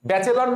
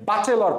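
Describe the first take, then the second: First: Said in the usual way. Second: "বাচেলর" with broad baa in place of bae; memory-trick pronunciation. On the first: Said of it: "ব্যাচেলর না পড়ে". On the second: Shown as a demonstration. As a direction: open the first vowel of "বাচেলর" to aa. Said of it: "এখন থেকে বাচেলর পড়বা".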